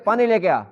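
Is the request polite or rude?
rude. It is said in a harsh, rude tone.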